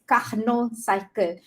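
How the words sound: Carnot is pronounced the French way. "since I I learn French, so it's, it's actually pronounced as"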